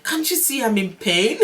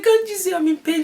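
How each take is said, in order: First: Higher-pitched retold protest breaking into a laugh; amused, indignant rising question; mock exasperation. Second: Very high, loud wail of protest; high-pitched exasperated yell, played for comedy; mock pained scream. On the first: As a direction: complain in pain, half amused. Retold outburst at husband, laughing after. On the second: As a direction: re-enact screaming at your husband in labor. Retold scream at husband during labor.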